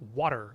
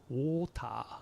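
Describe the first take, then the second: First: The middle consonant sounds like a soft D. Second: It is said with Japanese katakana-style syllables. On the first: "in American you say water, water. It's like a D sound" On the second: "katakanization of water"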